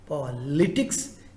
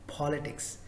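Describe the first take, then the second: First: The stress is not on the first syllable. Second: The stress is on the first syllable. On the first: The speaker calls it wrong. "It is not politics" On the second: The speaker calls it right. "The first syllable, the first part should be stressed"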